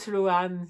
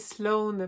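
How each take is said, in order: First: The name is pronounced with French sounds. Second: The name is pronounced with English sounds. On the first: The speaker calls it wrong. "c'est pas Sloane" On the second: The speaker calls it right. "prononcer les noms de famille anglophones comme il faut"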